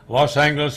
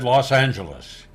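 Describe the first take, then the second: First: The G is hard, like in go. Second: The G is soft, like a J.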